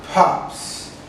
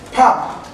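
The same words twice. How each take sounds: First: "pops" ending in a hissed s; plural s sound. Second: "Pop" with a crisp final p; "Pop", short and clear; singular model. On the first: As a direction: add a blown s to "pops". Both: Shown as a demonstration. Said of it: "Repeat with me one time".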